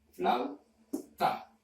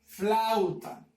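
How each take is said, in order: First: "flauta" split as FLAU, pause, TA; dividido en sílabas. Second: Said in the usual way. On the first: Shown as a demonstration. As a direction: say "flauta" as two detached syllables. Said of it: "puedes encontrar el diptongo en la primera sílaba". ("flauta" silabeado: FLAU, pausa, TA) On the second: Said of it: "la palabra".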